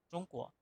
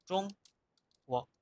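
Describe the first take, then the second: First: "Zhongguo" repetido en voz baja, con caída; mandarín repetido suave. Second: "Zhongguo" en mandarín, con tono alto y caída. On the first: ("Zhongguo" repetido en voz baja) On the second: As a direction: pronunciar "Zhongguo" como en chino. ("Zhongguo" en mandarín) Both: Shown as a demonstration. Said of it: "el nombre de China es Zhongguo".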